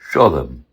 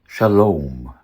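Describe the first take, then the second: First: It is said in a Yiddish pronunciation. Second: It is said in an Ancient Hebrew pronunciation. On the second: "Ancient Hebrew?"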